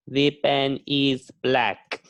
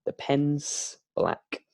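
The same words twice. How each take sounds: First: Slow, word-by-word textbook sentence; stiff unnatural English. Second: Relaxed contraction "pen's", slow and easy; natural English. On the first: Teacher shows learners the stiff version, slow and careful. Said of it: "People don't speak like this". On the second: Teacher models the natural version to learners, relaxed and slow. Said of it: "we use natural English". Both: Shown as a demonstration.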